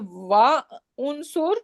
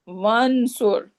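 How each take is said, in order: First: A glottal stop separates wa from unsur. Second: Wa runs straight into unsur without a stop. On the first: The speaker calls it wrong. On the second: The speaker calls it right.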